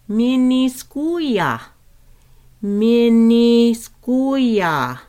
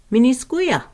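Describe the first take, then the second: First: "miniskuya" stretched, higher and louder; very slow Lakota. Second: Said in the usual way. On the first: Shown as a demonstration. Teacher modelling salt, very slow and loud. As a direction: draw out "Miniskuya" syllable by syllable. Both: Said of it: "how we say salt is".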